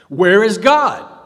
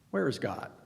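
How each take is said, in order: First: It is nearly shouted in anger. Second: It is said calmly and quietly.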